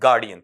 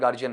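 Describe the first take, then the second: First: The middle consonant is a clear d sound. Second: The middle consonant is a j sound. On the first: The speaker calls it right. "ये क्या बना? गार्डियन।" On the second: The speaker calls it wrong. "आप गार्जियन गार्जियन नहीं बोलेंगे"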